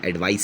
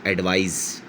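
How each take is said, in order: First: एडवाइस with a long final s; C-spelt एडवाइस. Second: एडवाइस with a voiced z at the end; verb एडवाइस, Z. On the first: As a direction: end the noun एडवाइस on s, no buzz. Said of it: "सी वाला". (एडवाइस के आख़िर में स बोलें) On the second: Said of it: "जेड". (एडवाइस के आख़िर में ज़ बोलें) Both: Shown as a demonstration.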